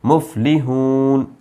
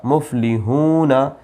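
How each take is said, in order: First: मुफलिहून stopped on the nun, the final vowel dropped; slow मुफलिहून, ending on the न; verse-end pause form. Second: मुफलिहूना with the final ना fully voiced; full spelled form. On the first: Teacher shows the stop at the verse's end, slow. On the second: Teacher spelling मुफलिहूना out with its final ना. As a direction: say मुफलिहूना ending on an open ना vowel. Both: Shown as a demonstration. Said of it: "लेकिन आयत आ गई है इसलिए ये ज़बर नहीं पढ़ा जाता".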